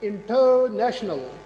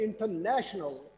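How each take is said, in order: First: The stress is on the syllable ter. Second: The stress is on the syllable na. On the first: The speaker calls it wrong. "अगर ये टर stress हो फिर ये बनना" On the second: The speaker calls it right. "मैंने कहा international ... ने ने"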